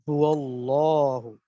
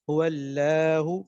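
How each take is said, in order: First: The L sound is heavy and full. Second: The L sound is light and thin. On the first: The speaker calls it right. "जबर या पेश हो तो मोटा पढ़ा जाता है" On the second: The speaker calls it wrong. "मोटा पढ़ने की जगह क्या पढ़ दिया, बारीक"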